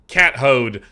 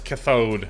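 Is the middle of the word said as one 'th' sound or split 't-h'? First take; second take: split; one sound. First: The middle is split into 't' and 'h'. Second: The middle is one smooth 'th' sound.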